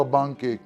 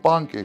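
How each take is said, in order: First: "بانكيك" with B in place of P; mispronounced B sound. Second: "بانكيك" with a clear puffed P; correct P sound. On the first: Retold or imitated. Cook quoting how YouTubers say it, mispronounced B sound. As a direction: imitate others saying "بانكيك" with a B. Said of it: "عم يلفظوها بانكيك". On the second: Shown as a demonstration. Cook teaching viewers the letter P, correct P sound. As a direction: stress the English P opening "بانكيك". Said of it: "حرف البي".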